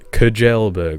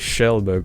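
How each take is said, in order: First: The name begins without an sh sound. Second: The name begins with an sh sound. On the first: The speaker calls it wrong. "people go Kjellberg. What?" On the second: The speaker calls it right. "Just say Shellberg"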